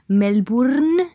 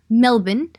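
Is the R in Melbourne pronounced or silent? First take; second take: pronounced; silent. First: The R sound in the word is pronounced. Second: The R sound in the word is silent. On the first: The speaker calls it wrong. "no digáis Melbourne" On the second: The speaker calls it right. "la R aparentemente no se pronuncia, así que tenéis que decir Melbourne"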